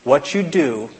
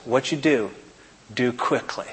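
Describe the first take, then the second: First: Said in the usual way. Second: Quiet voice. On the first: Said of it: "and Jesus said to Judas". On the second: Acted. Jesus quietly telling Judas to act, hushed. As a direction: let it sink to a near hush. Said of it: "in a quiet voice".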